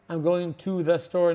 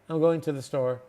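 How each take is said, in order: First: Every word, including 'to', is said in full. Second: The words are run together and 'to' is reduced. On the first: The speaker calls it wrong. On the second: The speaker calls it right.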